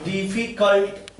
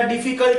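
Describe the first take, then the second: First: difficult slowly, as डिफी, then cult; syllable by syllable. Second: Said in the usual way. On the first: Shown as a demonstration. Teacher showing where breath stops, difficult slow in parts. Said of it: "एक बार में आपको डिफी बोलना पड़ेगा". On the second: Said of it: "क्या difficult एक बार में बोलेंगे?".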